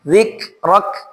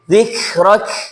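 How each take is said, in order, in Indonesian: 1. K di akhir ditekan kuat dan pendek. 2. K di akhir memudar dengan udara yang mengalir. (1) "Tapi dibaca dengan penekanan" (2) "jangan sampai dibaca"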